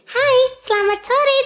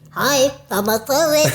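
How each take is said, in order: First: It is spoken in a shrill, high voice. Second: It is spoken like an elderly person. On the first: "kita mau pakai yang melengking gitu ya" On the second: "kita mau pakai suara nenek-nenek atau kakek-kakek"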